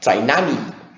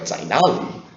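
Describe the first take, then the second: First: It has a Guiyang Mandarin N sound. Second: It has a standard Chinese L sound.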